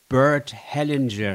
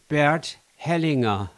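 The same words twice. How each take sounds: First: The name is said in an English way. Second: The name is said in a German way.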